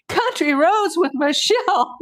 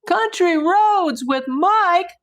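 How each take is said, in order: First: High, loud laughing cry; laugh-cry the name out. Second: High, loud, slow surprised read; excited. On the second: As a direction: stretch the name out in delight. Reads donor name in surprise. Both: Real, not acted.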